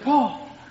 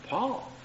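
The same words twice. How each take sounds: First: It is called with anxious worry. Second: It is called calmly and casually.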